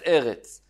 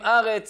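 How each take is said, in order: First: The first vowel is an e sound. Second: The first vowel is an a sound. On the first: The word stands in the middle of a verse. "אומרים את זה עם סגול, מתחת האלף" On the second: The word stands at the end of a verse. "אומרים ארץ עם קמץ מתחת האלף"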